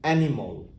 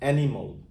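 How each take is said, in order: No difference in how they are said.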